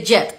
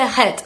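First: "jet" with a firm English j; correct pronunciation. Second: "het" with a breathy h for the first sound; wrong pronunciation. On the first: Teacher giving Colombians the chocolate-bar word, correctly pronounced. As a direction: say "jet", starting like a strong Spanish y. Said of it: "se dice jet". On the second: Teacher showing learners what not to say, mispronounced. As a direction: say "het", Spanish-style j as an h. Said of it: "No se dice het". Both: Shown as a demonstration.

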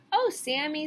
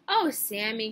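First: High, loud group complaint; children's reproach. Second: Louder groan in usual pitch. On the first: Children to Sammy who ate their book, loud reproach. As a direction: protest like annoyed schoolchildren. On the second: Teacher to Sammy who ate his painting, groaning. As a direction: groan in weary reproach. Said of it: "groaned the teacher". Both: A narrator's reading.

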